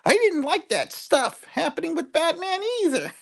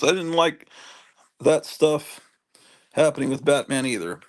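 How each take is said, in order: First: It is said in a squeaky cartoon-bird voice. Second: It is read in a normal speaking voice.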